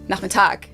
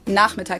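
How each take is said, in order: First: It has the speaker's Pennsylvania Dutch stress. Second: It has the usual standard German stress.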